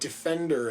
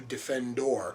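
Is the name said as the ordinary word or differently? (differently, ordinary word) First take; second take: ordinary word; differently. First: It sounds like the ordinary word defender. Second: It sounds unlike the ordinary word defender. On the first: This is the common mistaken form of the name. The speaker calls it wrong. "mispronounces the name the way everybody else does" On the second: This is the name as the character wants it. The speaker calls it right. "as opposed to"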